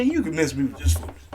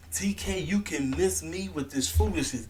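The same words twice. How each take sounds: First: Said in the usual way. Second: Breathy whispered repeat; whispered scolding aside. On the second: Real, not acted. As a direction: hiss it at TK under your breath.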